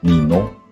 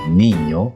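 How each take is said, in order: First: The middle consonant is a plain n. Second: The middle consonant is a ny sound. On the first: The speaker calls it wrong. "jangan dibaca" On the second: The speaker calls it right. "yang benar adalah"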